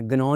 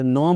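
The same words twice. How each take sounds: First: गनौ with the g sounded; hard g opening गनौ; mispronounced G. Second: नौ starting straight on n; no g before नौ; silent G. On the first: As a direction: say गनौ as guh-naw. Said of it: "गनौ नहीं बोलना". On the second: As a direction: say नौ as naw. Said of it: "तो नौ बोलना है". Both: Shown as a demonstration.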